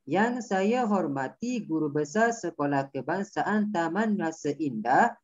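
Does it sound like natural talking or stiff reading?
natural talking. It sounds like natural everyday talking.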